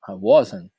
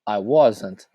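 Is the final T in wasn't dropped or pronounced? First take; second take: dropped; pronounced. First: The final T is dropped and not heard. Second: The final T is clearly pronounced and emphasized. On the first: This is how native speakers usually say it. "Eles não pronunciam esse Tzinho no final" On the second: It helps learners remember the letter is there. "eu falei aqui wasn't e eu enfatizei esse T"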